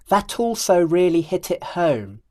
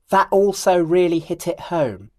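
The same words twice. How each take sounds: First: A clear t links 'that' into 'also'. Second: The t of 'that' is a glottal catch. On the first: The speaker calls it right. "then I'll connect the words in the proper way" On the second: The speaker calls it wrong. "First, I'll use a glottal stop"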